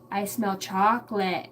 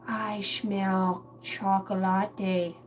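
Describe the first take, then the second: First: Said in the usual way. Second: Very slow, stretched-out sniffing discovery; toddler daughter. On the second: Retold or imitated. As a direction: draw out CHOCOLATE syllable by syllable like a small child. Imitates daughter, then repeats usual way.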